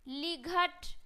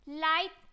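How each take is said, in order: First: The gh is pronounced as a g sound. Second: The gh is silent and the vowel glides. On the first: The speaker calls it wrong. "गलत है" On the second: The speaker calls it right. "इस तरीके से पढ़ना है"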